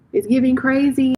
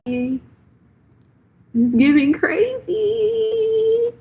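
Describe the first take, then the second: First: Said in the usual way. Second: "crazy" stretched very slowly, sung much higher; drawn-out sing-song. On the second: Shown as a demonstration. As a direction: draw "It's giving crazy" out in a high teasing sing-song.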